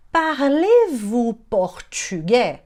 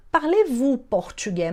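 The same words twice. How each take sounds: First: Slow, drawn-out syllables; slow teaching demo. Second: Said in the usual way. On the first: Shown as a demonstration. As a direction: sound it out slowly for learners. Teacher models phrase slowly. (demonstração lenta e pausada)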